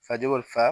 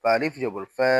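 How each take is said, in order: First: Final ফা with a short a; no stretch. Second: Final ফা with a long a; ফা held long; stretched vowel. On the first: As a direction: cut the last ফা short. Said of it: "তখন কোথাও টান দিব না". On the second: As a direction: draw out the last ফা. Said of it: "জবরে আমরা টান দিব". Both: Shown as a demonstration.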